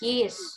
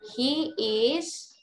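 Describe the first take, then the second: First: The two words merge into one syllable. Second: Both words are said fully and separately. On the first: "The short form" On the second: "he is, jadi his"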